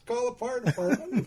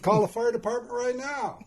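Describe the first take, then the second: First: Higher, firm mock-insistent advice. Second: Louder, higher, laughing through the order; laughing insistence. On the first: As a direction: lay it out as if it's obvious. Dad insists, first time. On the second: Retold or imitated. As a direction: push harder while cracking up. Dad insists harder, laughing.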